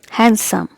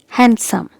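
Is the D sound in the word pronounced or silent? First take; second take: silent; silent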